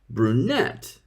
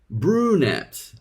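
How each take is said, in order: First: The stress is on the second syllable. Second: The stress is on the first syllable. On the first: This is how native English speakers say it. "native English speakers stress the second syllable" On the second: This is how Turkish speakers usually say it. "Turks usually stress the first syllable"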